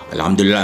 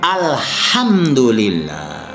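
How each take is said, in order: First: It is said quickly, run into the next repetition. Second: It is said slowly and calmly, standing alone. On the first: The speaker calls it wrong. "dicepatkan, digandengkan" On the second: The speaker calls it right. "yang benar adalah alhamdulillah ... pelan-pelan, tenang"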